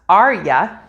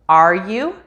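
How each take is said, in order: First: The word 'you' is reduced to a weak 'ya'. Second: The word 'you' is said fully and separately.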